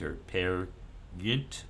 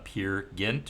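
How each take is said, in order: First: The name is said with Norwegian sounds. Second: The name is said with English sounds. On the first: The speaker calls it right. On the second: The speaker calls it wrong.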